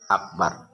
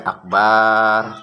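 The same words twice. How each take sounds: First: The vowel after the b is kept short. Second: The vowel after the b is drawn out long. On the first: The speaker calls it right. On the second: The speaker calls it wrong.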